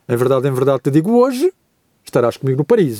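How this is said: The pause comes after the word 'hoje'. The promise is made today about a future day. "a vírgula for colocada depois do hoje"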